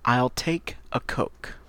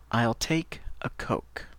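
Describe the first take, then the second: First: Slow, clear "I'll take a Coke"; slow model phrase. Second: "I'll take a Coke" whispered slowly; whispered model. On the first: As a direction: model it slowly. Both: Shown as a demonstration. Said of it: "Par exemple".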